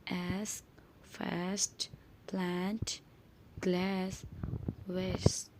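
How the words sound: The words are said in an American accent.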